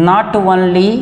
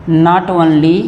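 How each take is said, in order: The two takes are said the same way.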